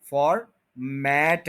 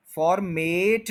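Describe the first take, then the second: First: फॉर्मेट as FOR, MAT in two slow parts; open a ending. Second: फॉर्मेट as for-MATE, drawn out slowly; long e ending. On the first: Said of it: "मेट नहीं है". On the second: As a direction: stretch the end of फॉर्मेट like mate. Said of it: "लफ्ज नहीं है". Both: Shown as a demonstration.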